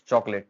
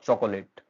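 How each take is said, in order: First: The word is said with two syllables. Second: The word is said with three syllables. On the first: The speaker calls it right. "It's चॉकलेट ... two syllable है चॉकलेट" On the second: The speaker calls it wrong. "Not चॉकोलेट"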